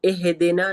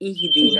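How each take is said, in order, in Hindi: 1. d के बाद का स्वर छोटा "i" है। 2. d के बाद का स्वर लंबा "ee" है। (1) "नहीं बोलेंगे" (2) "बोलेंगे"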